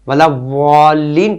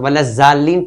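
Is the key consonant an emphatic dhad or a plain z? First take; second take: dhad; plain z. First: The key consonant is the emphatic dhad sound. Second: The key consonant is a plain z sound. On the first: The speaker calls it right. "वाला वालीन पढ़ना है" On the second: The speaker calls it wrong. "ज़्वाद की जगह जाल या जे पढ़ लेता है"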